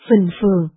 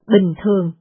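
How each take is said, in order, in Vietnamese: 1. Từ này bắt đầu bằng âm ph bật hơi, có nhiều hơi thở. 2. Từ này bắt đầu bằng âm b không bật hơi.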